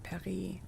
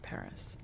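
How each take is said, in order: First: The word is pronounced with a French sound. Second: The word is pronounced with an English sound. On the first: This is how it is said when speaking French. "if I'm speaking in French, I would pronounce it" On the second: This is how it is said when speaking English. "if I'm speaking in English, I pronounce it"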